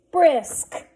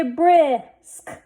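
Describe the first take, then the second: First: Said in the usual way. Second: Brisk drawn out, ending sounds separated; blended slowly. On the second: Shown as a demonstration. Teacher sounding out a word for readers, blended slowly. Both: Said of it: "Let's read this".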